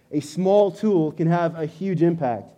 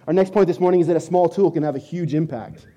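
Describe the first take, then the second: First: Slow and deliberate, each word weighed; small tool, huge impact, spelled out slowly; slow emphatic repeat. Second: Said in the usual way. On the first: Shown as a demonstration. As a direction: let the point sink in slowly. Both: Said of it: "repeats point slower".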